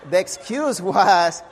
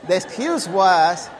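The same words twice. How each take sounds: The two takes are said the same way.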